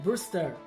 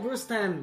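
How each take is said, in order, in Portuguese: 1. O nome é pronunciado sem som de n. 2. O nome é pronunciado com som de n. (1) "é Brewster" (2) "Não é Brewster, não tem N"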